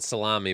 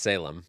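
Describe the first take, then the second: First: The name ends with an 'ee' sound. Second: The name ends with an 'em' sound. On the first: The speaker calls it wrong. "everyone calls him Ryan Salami" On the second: The speaker calls it right. "but it's Salem"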